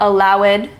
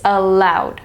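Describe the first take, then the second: First: The ending is an extra syllable. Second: The ending is a short D sound. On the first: The speaker calls it wrong. "It's not allowed" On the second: The speaker calls it right. "Also the D sound"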